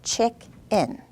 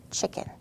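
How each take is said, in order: First: Chick and in split with a beat; two even punched beats, chick-in; syllables pounded apart. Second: Chicken said smoothly as one word in a whisper; blended, whispered. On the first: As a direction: pound out each syllable separately. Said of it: "I'm gonna fist pound it". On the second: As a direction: blend it softly in one breath. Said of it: "I'm gonna blend it". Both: Shown as a demonstration.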